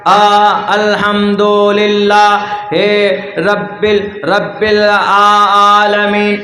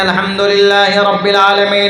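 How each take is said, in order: First: It is recited haltingly with stumbles. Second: It is recited smoothly without breaks.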